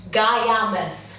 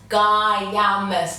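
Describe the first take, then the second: First: The name is said as Guy-a-mas. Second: The name is said as Guy-a-mas.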